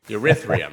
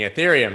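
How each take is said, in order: First: The word is pronounced in a garbled, nonstandard way. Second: The word is pronounced in the usual standard way. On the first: Someone unfamiliar with the coin said it. The speaker calls it wrong. "asking you about coins and mispronouncing them" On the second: This is the coin's actual name. The speaker calls it right. "obviously meaning Ethereum"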